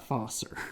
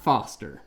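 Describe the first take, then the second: First: The name is said without a t sound. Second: The name is said with a t sound. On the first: The speaker calls it right. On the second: The speaker calls it wrong. "Not Foster"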